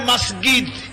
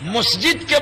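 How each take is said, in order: First: The consonant after s is a g sound. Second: The consonant after s is a j sound.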